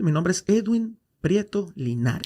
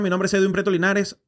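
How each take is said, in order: First: The name is said slowly and unhurriedly. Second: The name is said very quickly. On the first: The speaker calls it right. "Habla más pausado" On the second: The speaker calls it wrong. "De decir mi nombre muy rápido"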